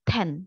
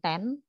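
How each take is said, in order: First: The first consonant has a puff of air. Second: The first consonant has no puff of air. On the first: The speaker calls it right. "tapi ten dibacanya kayak gitu" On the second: The speaker calls it wrong. "bukan ten"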